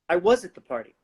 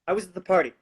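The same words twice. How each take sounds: First: The stress is on the word was. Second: The stress is on the word party.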